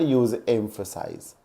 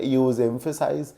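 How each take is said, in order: First: Slow, falling model of use emphasize; pronunciation demo. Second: Teacher voice, each word of use emphasize drawn out; slow, quiet model of use emphasize; pronunciation demo. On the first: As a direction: use emphasize drawn out very slowly and dropping soft. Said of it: "where a verb is required". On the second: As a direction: use emphasize said very slowly and softly. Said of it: "जहां आपको noun की need लगती है". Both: Shown as a demonstration.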